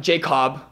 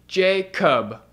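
First: Jacob said JAY-kahb; mock mispronunciation. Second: Jacob said JAY-kub; corrective pronunciation. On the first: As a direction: say Jacob with a full open "ah" in the second syllable. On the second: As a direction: say Jacob with a weak "uh" in the second syllable. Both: Shown as a demonstration. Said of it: "Not Jacob".

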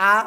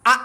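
First: "আ" drawn out, without the hard cut; wrong hamza. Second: "আ" hard and short from the throat; hard hamza. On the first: Teacher showing the mistaken hamza, lengthened "আ". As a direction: let "আ" run on as a long open vowel. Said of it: "তাহলে হবে না". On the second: Teacher showing correct hamza, hard short "আ". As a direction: punch "আ" out firmly and cut it off. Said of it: "শক্তভাবে". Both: Shown as a demonstration.

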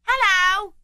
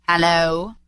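First: Put-on high-pitched boy calling back; boy's voice. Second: Feigned growl. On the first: Boy answers Scrooge in the street, high boyish call. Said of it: "returned the boy". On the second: Acted. Scrooge feigns his accustomed voice at Bob, mildly growling. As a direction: put on a touch of the old grump. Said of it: "growled Scrooge in his accustomed voice".

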